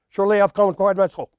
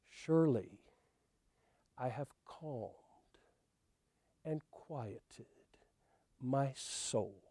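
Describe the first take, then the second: First: It is read fast. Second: It is read slowly.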